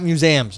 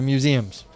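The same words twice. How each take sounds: First: The middle syllable has an 'eh'-like vowel. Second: The middle syllable has no 'eh'-like vowel. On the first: The speaker calls it wrong. "They are not museums; ... It's not an eh sound" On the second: The speaker calls it right. "they're museums"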